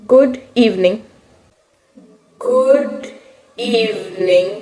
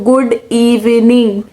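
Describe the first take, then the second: First: Frozen stage-fright greeting. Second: Slow, drawn-out "गुड evening" mocking her own mistake; mocking replay of the blunder. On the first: Retold or imitated. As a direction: stammer out "गुड evening" like a terrified kid on stage. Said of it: "और वहीं मैंने सब गोबर गणेश कर दिया". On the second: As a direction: stretch "गुड evening" out, laughing at yourself. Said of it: "मैं सुबह सुबह स्कूल के असेंबली में बोल रही हूँ".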